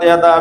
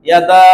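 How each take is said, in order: First: The final vowel is short, not drawn out. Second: The final vowel is drawn out long. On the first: One hand is meant. The speaker calls it wrong. "কোনো টান নেই, একদম reading" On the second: Two hands are meant. The speaker calls it right. "Abu লাহাবের দুই হাত ধ্বংস"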